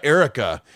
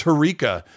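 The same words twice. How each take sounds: First: Erica said as HAIR-uh-ka, stress up front; mispronounced name. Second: Harika said huh-REE-ka, stress on the middle; corrected name. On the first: AI companion quoting the player's wrong Erica as HAIR-uh-ka, mispronounced name. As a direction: hit the first syllable of Erica, HAIR-uh-ka. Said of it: "My name's not Erica". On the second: AI companion giving her name Harika as huh-REE-ka, corrected name. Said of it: "It's Harika". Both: Retold or imitated.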